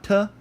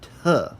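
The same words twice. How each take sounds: First: The t is plain, with no puff of breath. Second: The t is aspirated, with a puff of breath. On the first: The speaker calls it wrong. "Not t" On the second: The speaker calls it right. "but t, like that"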